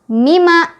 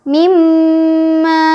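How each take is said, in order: First: A single m is said with no nasal hold. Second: The doubled m is nasalized and held long. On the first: The speaker calls it wrong. "Yang salah mima, itu mah udah tidak ada tasdid, otomatis tidak ada dengung" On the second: The speaker calls it right. "mimma mimma itu yang betul"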